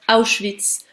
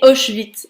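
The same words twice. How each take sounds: First: The word is said in its standard form. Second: The word is said in a distorted, childlike way. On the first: This is the actual name of the camp. The speaker calls it right. "est en fait" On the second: This is how the child mishears the name. The speaker calls it wrong. "il prononce mal les choses"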